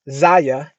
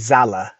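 First: The middle consonant sounds like a Y. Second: The middle consonant sounds like an L. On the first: "That's why I'm pronouncing it with the Y" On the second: "Otherwise, it'd be Zalla"

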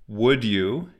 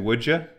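First: The final word is said in full as 'you'. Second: The final word is reduced to 'ya'.

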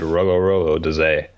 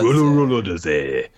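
First: The name is read flatly, without energy. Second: The name is said with lively enthusiasm. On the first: The speaker calls it wrong. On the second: The speaker calls it right.

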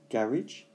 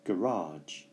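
First: It is pronounced the British English way. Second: It is pronounced the American English way. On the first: "there are two pronunciations in British English. One is garage" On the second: "in American English, they have another pronunciation, which is garage"

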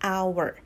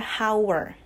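First: The word begins with a vowel, no h. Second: The word begins with an audible h sound. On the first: The speaker calls it right. "tapi hour" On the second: The speaker calls it wrong. "tapi dia tidak dibaca hour"

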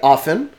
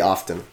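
First: The word is said with a silent T. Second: The word is said with an audible T. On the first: This is the American way of saying it. "Americans say often" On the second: This is the Canadian way of saying it. "And we say often"

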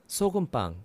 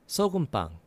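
Both takes have the same delivery.

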